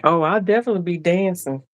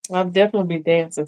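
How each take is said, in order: First: Said in the usual way. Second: Repeated quickly through a real laugh; laughing reply to the viewer. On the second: Real, not acted. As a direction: laugh while you repeat it.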